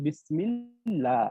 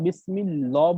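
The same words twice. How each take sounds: First: Slow বিসমিল্লাহ with thin, light lam; বিসমিল্লাহ drawn out with a thin lam; correct reading. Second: বিসমিল্লাহ with heavy lam, the wrong way; বিসমিল্লাহ with full lam, shown as wrong; wrong reading. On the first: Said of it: "আমরা বলি". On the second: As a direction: say বিসমিল্লাহ with a thick L as a mistake. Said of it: "তখন কিন্তু আমরা বিসমিল্লাহ বলি না". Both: Shown as a demonstration.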